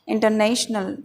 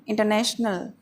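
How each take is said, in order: Both takes have the same delivery.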